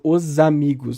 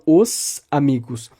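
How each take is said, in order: First: The S in 'os' is softened. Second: The S in 'os' is said plainly. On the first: The speaker calls it right. "a tendência ali de fazer a palatalização" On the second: The speaker calls it wrong. "eu não falo os amigos"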